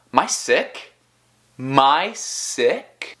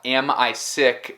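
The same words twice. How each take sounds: First: "Am I" shrunk to "my" before "sick"; "My sick" as a reduced, rising question; merged informal sounds. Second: Said in the usual way. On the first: Shown as a demonstration. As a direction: run "Am I" together as "My sick". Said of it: "vai sair mais ou menos como". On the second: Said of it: "em vez de falar tipo".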